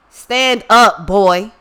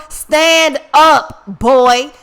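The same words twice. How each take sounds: First: Calling out. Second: Louder, more insistent shout of Stand up; louder call. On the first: Calling to drowning brother in pool. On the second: Repeating the call to the panicking brother, louder and more urgent. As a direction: bark the order again, harder. Calling to drowning brother again. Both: Retold or imitated.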